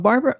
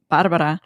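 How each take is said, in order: First: The R sounds are plain, not rolled. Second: The R sounds are rolled or tapped. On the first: This is acceptable from people who cannot make the sound. "some people can't maybe pronounce the my the R. So Barbara, uh, like Barbara's fine" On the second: This is the way the speaker prefers the name. "I prefer Barbara"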